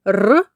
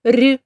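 First: Firm rolled "р"; hard consonant. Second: Soft, palatalized "р"; soft consonant. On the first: Teacher asking which sound is in the word, hard "р". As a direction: give "р" hard, with no softening. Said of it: "твердий". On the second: Teacher asking which sound is in the word, soft "р". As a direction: give "р" softened, as if before "і". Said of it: "чи м'який". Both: Shown as a demonstration.

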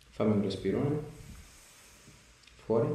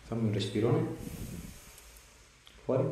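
The two takes are said the same way.

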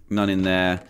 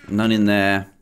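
Both takes have the same delivery.

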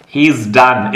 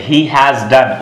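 First: HE IS squeezed into heez; contracted he's. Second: HE HAS as two separate words; full uncontracted form. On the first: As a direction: say "He is" as one syllable ending in z. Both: Shown as a demonstration. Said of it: "इसका मतलब क्या हो गया".

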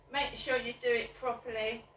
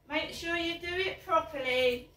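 First: Said in the usual way. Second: Laughing. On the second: Real, not acted.

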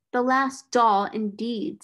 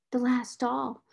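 First: Louder, mocking retort; scornful echo. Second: Little mournful, odd-sounding voice. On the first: Miss Minchin echoing the mournful girl, scornfully. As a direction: throw the words back with scorn. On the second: Orphaned girl gazing at her last doll, mournfully. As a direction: echo it wistfully, understated. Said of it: "mournful voice had an odd sound". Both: A narrator's reading.

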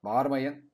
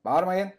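First: Stop shouting. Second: Higher, louder yell of stop shouting; louder scolding shout. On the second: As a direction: shout them down even harder. (daha yüksek sesle azarlayan bağırış) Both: Real, not acted. Telling roaring dinosaurs to stop.

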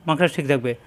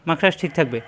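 The two takes are said the same way.

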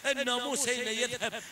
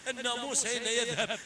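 Both takes have the same delivery.

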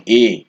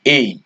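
First: এ said as plain এ, the usual way; common wrong say. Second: এই with a gliding ই ending; correct letter name. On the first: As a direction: say এ like the Bangla letter এ. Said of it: "আমরা কিন্তু এটাকে এ বলি". (ভুল উচ্চারণে এ) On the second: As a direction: stretch এই into a glide. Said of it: "এটা কিন্তু আসলে". (সঠিক উচ্চারণে এই) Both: Shown as a demonstration.

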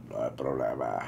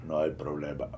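First: Very low, husky and calm tough-guy line; Vin Diesel's raspy voice. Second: Much lower, husky tough-guy rumble; Vin Diesel's raspy voice. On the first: Reviewer redoing the Vin Diesel line, very low and husky. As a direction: rumble it deep like Vin Diesel, unbothered. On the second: Reviewer imitating Vin Diesel, husky and much lower. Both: Retold or imitated. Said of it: "tiene una voz muy ronca".

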